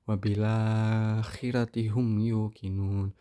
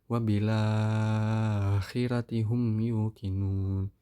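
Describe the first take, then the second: First: The lengthened vowel is held a medium time. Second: The lengthened vowel is held very long. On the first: "mad badalnya tawasud" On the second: "tul, enam harokat"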